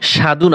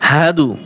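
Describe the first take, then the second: First: The h sound is missing, giving shadu. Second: A clear h sound is heard, giving hadu. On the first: The speaker calls it wrong. "অনেকেই পড়ে আশহাদু সাধু না" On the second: The speaker calls it right. "হা হা জবর হা"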